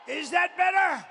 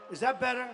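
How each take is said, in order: First: Much higher, louder call to the back; testing the mic with a loud call; mic check shout. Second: Said in the usual way. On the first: Shown as a demonstration. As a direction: yell it to the back rows.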